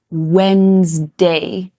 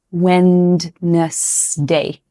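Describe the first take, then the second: First: Wednesday said WENZ-day, no D; Wednesday in two syllables, WENZ-day; correct Wednesday. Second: Wednesday said very slowly with the D, WED-nes-day; Wednesday read as spelled, WED-nes-day, drawn out; wrong Wednesday. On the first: Teacher models the right Wednesday. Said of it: "So we pronounce this". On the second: Teacher slowly shows the wrong Wednesday. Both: Shown as a demonstration.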